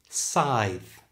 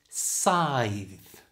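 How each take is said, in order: First: It is said at normal conversational speed. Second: It is said slowly and exaggerated. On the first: "And now at normal speed" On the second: "slowly and exaggerated"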